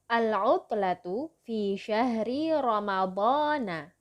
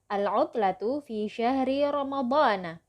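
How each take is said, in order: First: It is read somewhat more slowly. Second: It is read at a normal, quicker pace.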